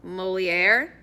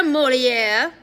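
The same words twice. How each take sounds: First: Said in the usual way. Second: Molière loud and high with French flourish; exaggerated French accent. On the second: A narrator's reading. Addison introducing his sister Molière to the guard, French accent. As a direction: present Molière grandly in a French accent, rising. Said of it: "speaking in an exaggerated French accent".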